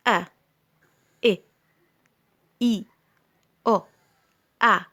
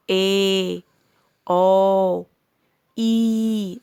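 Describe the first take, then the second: First: "أ، إ، إي، أو، أ" each very short, with pauses; short vowel sounds. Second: "إيه، أو، إي" each drawn out long; long letter names. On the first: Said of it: "أسمائهم اللي هي الصوتية". ("أ، إ، إي، أو، أ" أصوات قصيرة مخطوفة) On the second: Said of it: "مديت فيه". ("إيه، أو، إي" ممدودة بأسمائها) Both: Shown as a demonstration.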